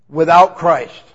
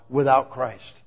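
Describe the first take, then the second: First: Loud "Without Christ" after a held pause; dramatic pause. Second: After the pause, low "Without"; dramatic pause. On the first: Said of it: "Pause for effect". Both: Shown as a demonstration.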